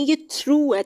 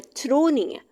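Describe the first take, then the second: First: Through said as throo, with a long oo; right pronunciation. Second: Through said as thro, with an o ending; wrong pronunciation. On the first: Teacher showing students the right sound, through as throo. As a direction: give through a clean long oo ending, throo. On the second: Teacher warning students off the wrong form, through as thro. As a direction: say through as thro to show the mistake. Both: Shown as a demonstration. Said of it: "इसकी pronunciation सही check करनी है".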